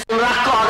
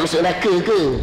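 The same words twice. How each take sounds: First: It is said in a harsh northern dialect. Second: It is said in a soft city dialect. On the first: "kalau di Kedah tuan-tuan bahasanya kasar sikit" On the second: "Kalau kat K L tuan-tuan"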